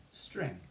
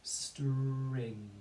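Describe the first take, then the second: First: Said in the usual way. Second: STRING slowly stretched, sounds run together; STRING held long, phonics blend. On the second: Shown as a demonstration. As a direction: draw out the r in STRING as you blend. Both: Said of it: "we can build the word".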